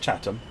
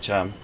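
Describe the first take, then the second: First: The name is said in full, all sounds clear. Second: The name is said quickly with sounds dropped. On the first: This is the official pronunciation. "it's supposed to be pronounced Chatham" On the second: This is how locals say it. "but even I call it Cham"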